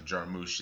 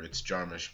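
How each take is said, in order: First: The name is said with a Hungarian pronunciation. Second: The name is said with an American pronunciation. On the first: This is how the family's original language says it. "he says Jarmusch is how it's with the accent is how it's said" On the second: This is how people in the US usually say it. "but like in the American, whatever, it's Jarmusch"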